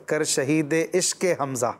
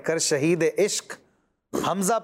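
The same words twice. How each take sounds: First: The words are run together without a break. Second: The words are kept apart with a break. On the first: The speaker calls it wrong. "بعض اس کو ملا کے پڑھتے" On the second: The speaker calls it right. "اس کو یوں پڑھیں"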